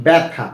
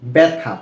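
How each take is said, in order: First: ব্যথা said as "bɛtha", first vowel open like অ্যা; ব্যথা with the ব্য sounded "bæ"; clear model reading. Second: ব্যথা again with a closer "be" at the start, pitch dropping; ব্যথা repeated low and settled as "betha"; repeated model reading, lower. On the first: Teacher models ব্যথা for students, open "bæ" sound. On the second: Teacher repeats ব্যথা to students, ending low and settled. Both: Shown as a demonstration. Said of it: "কি হয়?".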